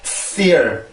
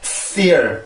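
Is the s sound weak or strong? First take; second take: strong; strong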